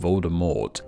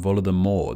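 First: The final T is clearly pronounced. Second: The final T is silent. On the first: "not Voldemort" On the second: "the T should be silent, making it sound like Voldemort"

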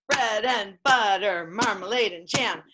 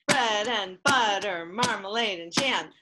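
Both takes have the same delivery.

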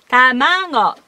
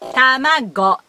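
First: The last consonant is a nasal ng. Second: The last consonant is a hard g. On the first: "ビダゴン、"

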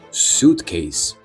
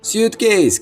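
First: The stress is on the first syllable. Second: The stress is not on the first syllable. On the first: The speaker calls it right. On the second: The speaker calls it wrong.

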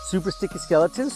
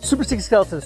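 First: It is said at medium speed. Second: It is said very fast.

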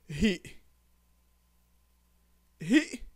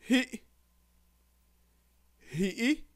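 The two takes are said the same way.

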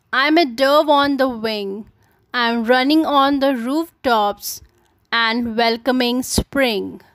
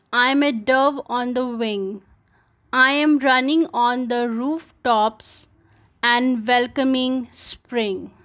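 Both takes have the same delivery.

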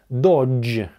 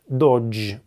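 Both takes have the same delivery.

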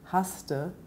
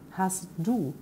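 First: The two words are merged into one. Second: The two words are said separately. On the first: This is the casual spoken form. "Man sagt zum Beispiel ganz oft haste" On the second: This is the full written form. "statt hast du"

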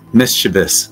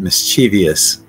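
First: The word has three syllables, with no extra 'ee' before the ending. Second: The word has four syllables, with an extra 'ee' before the ending. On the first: The speaker calls it right. "So it's just mischievous" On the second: The speaker calls it wrong. "But that I's not there"

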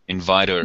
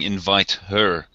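First: The h is dropped, gliding into one word. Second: The h in 'her' is fully pronounced. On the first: The speaker calls it right. "just do that glide into the next word" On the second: The speaker calls it wrong. "You're not saying invite her"

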